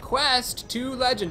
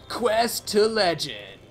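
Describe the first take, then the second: First: It is said in his normal speaking voice. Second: It is said in a put-on announcer voice.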